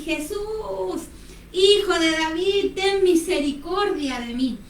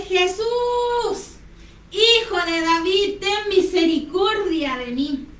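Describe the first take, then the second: First: Drawn-out calling out, held back; imitated cry. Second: High, drawn-out pleading call; imitated stronger cry. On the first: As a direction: call out to Jesus in a mild mock shout. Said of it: "empezó a gritar". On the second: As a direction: cry out higher, stretching the words to be heard. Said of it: "él clamaba aún más fuerte".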